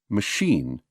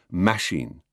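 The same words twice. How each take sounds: First: The stress is on the second syllable. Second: The stress is on the first syllable. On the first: The speaker calls it right. "Always machine" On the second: The speaker calls it wrong. "never machine"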